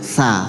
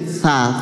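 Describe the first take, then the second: First: The tongue tip stays just behind the teeth. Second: The tongue is pushed out between the teeth. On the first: The speaker calls it right. "Jadi ndak mepet juga ndak terlalu jauh" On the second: The speaker calls it wrong. "ditaruh di antara dua gigi, kayak digigit ya"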